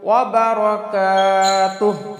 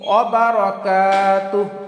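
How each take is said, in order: Both takes have the same delivery.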